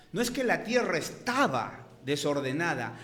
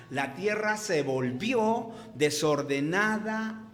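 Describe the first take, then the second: First: Said in the usual way. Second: Slow, leaning on "volvió"; stress on volvió. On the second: Shown as a demonstration. Preacher correcting the verse for his congregation, stressing "volvió". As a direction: draw out "se volvió" to correct the reading. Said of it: "Vuelvo a repetir y a recalcar".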